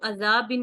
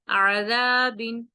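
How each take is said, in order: First: It starts with a plain, unconstricted vowel. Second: It starts with a tight, throaty vowel sound. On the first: The speaker calls it wrong. "इसको अजाबिन नहीं पढ़ना" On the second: The speaker calls it right. "आइन का अ, जो मखरज है उसको उसी तरह अदा करेंगे"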